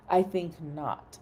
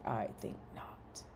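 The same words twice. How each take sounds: First: Said in the usual way. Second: Low unvoiced mock-haughty whisper; whispered retort. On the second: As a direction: breathe it out with mock disdain. Teasing co-host Mike.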